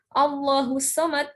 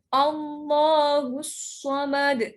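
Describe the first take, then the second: First: The s in samad is light and thin. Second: The s in samad is heavy and thick. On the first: The speaker calls it wrong. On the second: The speaker calls it right. "ke huruf shad hati-hati"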